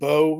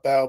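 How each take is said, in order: First: The vowel is 'oh', rhyming with go. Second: The vowel is 'ow', rhyming with cow. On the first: The speaker calls it right. "my last name is actually pronounced Bo" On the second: The speaker calls it wrong. "not Bow"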